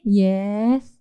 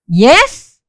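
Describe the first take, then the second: First: It is said flatly, with little energy. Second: It is said loudly, with lots of energy. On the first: The speaker calls it wrong. "Tapi jangan gini" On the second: The speaker calls it right. "yang semangat"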